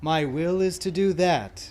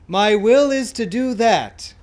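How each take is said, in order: First: It is spoken more softly and quietly. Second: It is spoken in a full, strong voice. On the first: "a little more softly" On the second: "we're going to do this in a full voice"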